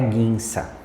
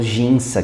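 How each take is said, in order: First: The word begins with a hard g sound. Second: The word begins with a soft zh sound. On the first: The speaker calls it right. "a forma correta de se falar é guinça" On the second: The speaker calls it wrong. "O famoso ginça que a gente conhece"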